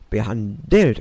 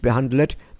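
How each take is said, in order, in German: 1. Die Laute des Wortes kommen in ihrer normalen Reihenfolge. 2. Zwei Laute des Wortes sind vertauscht. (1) "Behandelt, nicht behandelt" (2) "Mal wieder ein Buchstabendreher"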